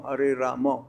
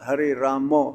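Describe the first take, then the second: First: The word Rama ends in an 'o' vowel. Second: The word Rama ends in an 'o' vowel.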